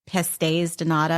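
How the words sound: It is said with an American English accent. "in the United States, we call it"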